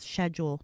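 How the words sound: It is said with a British pronunciation. The speaker calls it wrong. "the one thing I don't like about the Brits"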